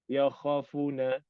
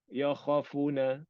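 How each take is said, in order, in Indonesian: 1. Vokal setelah kha dan fa pendek. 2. Vokal setelah kha dan fa pendek.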